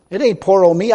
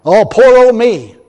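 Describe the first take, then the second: First: Said in the usual way. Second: Slow, louder mock whine of poor old me; mock self-pity. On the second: Preacher mocks ministers pitying themselves, slow mock whine. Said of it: "push stuff off on".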